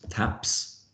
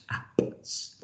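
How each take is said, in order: First: Said in the usual way. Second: Teacher to trainees, "taps" sounded out sound by sound; "taps" split into separate whispery letter sounds. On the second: Shown as a demonstration. Teacher showing a word to blend, "taps" segmented slowly.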